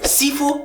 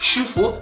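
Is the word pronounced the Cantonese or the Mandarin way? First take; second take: Cantonese; Mandarin. First: It begins with a plain s sound, Cantonese style. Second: It begins with an sh sound, Mandarin style. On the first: The speaker calls it wrong. "Sifu Cantonese" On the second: The speaker calls it right. "Shifu Mandarin"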